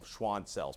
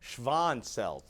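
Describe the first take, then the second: First: The name is said with a W sound. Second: The name is said with a V sound. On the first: This is the usual American pronunciation. "we're going to use the W sound" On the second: This is the original German pronunciation. "This is actually sounds like a V"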